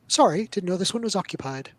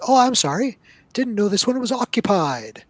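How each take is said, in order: First: A charming apology, lightly voiced; smooth it over with charm; same apology retried, now with a little charm; putting on charm. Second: High, loud and flustered, backing off; a nervous little halfling blurting an apology; halfling player apologizing to the goblins, high and flustered; apologetic halfling in Goblin. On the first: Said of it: "he puts on some charm". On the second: Acted. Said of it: "holds up his hands in Goblin and says".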